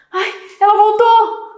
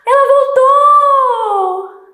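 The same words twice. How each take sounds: First: Higher, louder caught-out cry; startled dismay. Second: Much higher, louder, slow sing-song cry of joy; joyful surprise. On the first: Son caught red-handed when his mother comes home early. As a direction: gasp it like you've been caught. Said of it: "ele tá espantado". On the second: Son thrilled that his mother is back from her trip. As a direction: sing it out in delight. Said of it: "Ele tá alegre, surpreso". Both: Shown as a demonstration.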